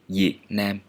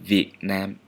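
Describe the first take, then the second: First: The first sound is a palatal Y-like sound. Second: The first sound is a V sound. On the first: The speaker is using the Southern pronunciation. "if I'm in the South, I would pronounce this one like" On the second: The speaker is using the standard pronunciation. "the standard pronunciation of this consonant is is still V"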